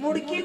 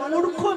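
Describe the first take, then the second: First: The word ends with a 'gi' sound. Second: The word ends with a 'kho' sound. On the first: The speaker calls it wrong. "মুরগি না" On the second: The speaker calls it right. "বলো মূর্খ মেয়ে"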